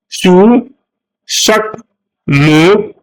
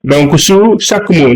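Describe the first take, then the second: First: Each word set apart, slow and higher; word-by-word emphasis. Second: Said in the usual way. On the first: Shown as a demonstration. Teacher spelling out the instruction word by word. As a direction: lay out sous, chaque, mot one at a time. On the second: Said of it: "je mets un trait comme ça".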